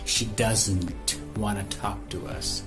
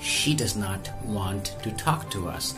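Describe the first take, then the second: First: Not is contracted into doesn't. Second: The word not is said in full.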